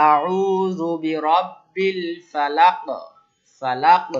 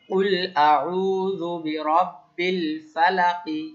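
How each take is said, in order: First: Slow, louder chant stopping on ফালাক with a bounced ক; stopping with qalqala. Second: Slow, louder chant keeping the kasra on ফালাকি; Quran recitation, full vowel. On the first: Teacher demonstrates qalqala on ফালাক to the class. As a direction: stop on ফালাক and echo the final ক. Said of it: "সেটা কলকলা করতে হবে". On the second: Teacher recites the verse with the full ending for students. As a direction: recite slowly, sounding ফালাকি with its final i. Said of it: "জের দিয়ে দেখি". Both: Shown as a demonstration.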